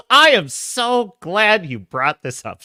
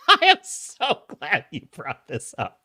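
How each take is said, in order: First: Slow, drawn-out glad reply; emphatic delight. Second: Gleeful repeat. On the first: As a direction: stretch out how glad you are. Mock-effusive reply to chat message. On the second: Repeats reply differently, after a laugh. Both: Pretend.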